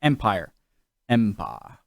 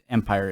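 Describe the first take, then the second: First: "empire" said the posh British way, EM-pie-uh with no r; the corrected take of "empire"; right empire. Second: "empire" said the wrong way, as a mocked American EM-pire; the rejected take of "empire". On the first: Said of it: "Not empire, it's". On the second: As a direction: contrast take of "empire", the one to avoid. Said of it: "Not empire". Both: Shown as a demonstration.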